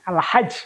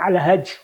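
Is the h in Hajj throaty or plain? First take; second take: throaty; plain. First: The h is a throaty, breathy sound. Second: The h is a plain, light sound. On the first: The speaker calls it right. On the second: The speaker calls it wrong.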